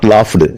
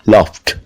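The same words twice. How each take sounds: First: The ending is not a t sound. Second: The ending is a t sound. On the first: The speaker calls it wrong. "Not laughed" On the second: The speaker calls it right. "L A U G H T sound"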